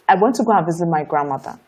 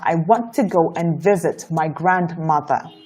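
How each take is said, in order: First: Final consonants are dropped and the pace is fast. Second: Final consonants are clear and the pace is slower. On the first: The speaker calls it wrong. "This is what you would normally do" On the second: The speaker calls it right. "the moment you pay attention to pronouncing the last consonant sounds properly, it's going to slow down your speech"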